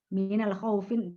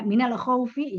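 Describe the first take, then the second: First: The last word ends with an added n sound. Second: The last word ends without an n sound. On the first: The speaker calls it wrong. "bukan minal khaufin" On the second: The speaker calls it right. "ya khaufi"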